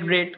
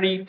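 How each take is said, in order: First: The vowel is a short e sound. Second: The vowel is a long ee sound. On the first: It is the past participle form of the verb. "উচ্চারণটা রেড হবে কিন্তু বানানটা আর ই এডি থাকছে" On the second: It is the present form of the verb. "পড়া রিড"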